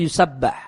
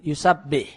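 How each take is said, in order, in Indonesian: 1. Huruf vokal setelah dua b adalah a. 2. Huruf vokal setelah dua b adalah i. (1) "sebagian qiraah itu membacanya bil bina ilim maf'ul" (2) "yusabbih dibaca dengan bina lil fa'il"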